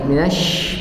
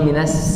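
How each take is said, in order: First: It ends with a held sh sound. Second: It ends with a plain s sound. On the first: The speaker calls it right. "di huruf shin ada tasydid" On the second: The speaker calls it wrong. "bukan minas"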